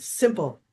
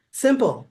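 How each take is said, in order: First: Said in the usual way. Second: Simple higher and louder, falling; stress on simple. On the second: Shown as a demonstration. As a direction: lean hard on the word simple. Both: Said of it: "I'm not saying it's easy, just simple".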